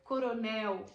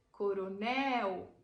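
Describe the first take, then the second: First: Said in the usual way. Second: "Coronel" said very slowly, leaning on the last syllable "nel"; final syllable stressed. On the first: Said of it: "Veja que são palavras oxítonas". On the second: Shown as a demonstration. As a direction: drag out "Coronel" and land hard on "nel". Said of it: "A última sílaba é a mais forte".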